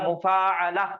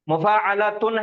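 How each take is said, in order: First: The word ends with a plain 'a' sound. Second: The word ends with a 'tun' sound. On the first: This is the form used when stopping. "आयत करेंगे तो ता हा में बदल जाती, वो बन जा रहा मुफाअला" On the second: This is the full form with the case ending. "मुफाअलातुन है"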